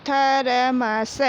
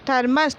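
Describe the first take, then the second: First: thermos drawn out slowly as थ-र-म-स; slow syllable reading. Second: Said in the usual way. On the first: Shown as a demonstration. Teacher sounding out thermos for pupils, slowly. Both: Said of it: "पूरा इसका उच्चारण कैसे".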